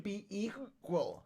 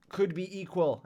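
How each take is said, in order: First: Hiccuping mid-word; words broken by a hiccup. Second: Said in the usual way. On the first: Real, not acted. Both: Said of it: "These hiccups are killing me".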